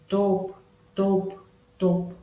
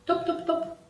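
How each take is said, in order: First: The words are said slowly with gaps. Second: The words are said quickly without gaps. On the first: An old man is walking. "как ходит старичок" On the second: A boy is running. "Произносится быстро"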